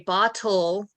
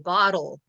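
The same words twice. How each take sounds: First: The middle consonant is a clear T sound. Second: The middle consonant sounds like a D. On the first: "with the T sound" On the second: "it sounds like a D"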